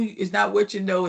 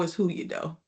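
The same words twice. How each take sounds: First: "what" stressed in "it's not what you know". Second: "who" stressed and the phrase dropped softer as the punchline. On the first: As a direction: lean on "what" to set up the contrast. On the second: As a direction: land on "who", then let the line fall quieter. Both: Shown as a demonstration. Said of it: "In other words".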